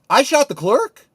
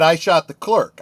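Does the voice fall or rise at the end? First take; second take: rise; fall. First: It ends rising, like a disbelieving question. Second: It ends falling, like a flat statement.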